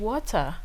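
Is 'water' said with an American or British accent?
British. The word is said with a British-style accent. This is the pronunciation Americans did not understand. The speaker calls it wrong. "I said water"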